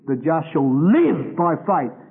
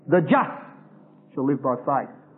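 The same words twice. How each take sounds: First: The stress falls on the word live. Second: The stress falls on the word just. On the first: Living rather than dying is the point. "because the questions here were life and death" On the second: Being justified is the point. "Because Galatians is dealing with those who are justified by faith"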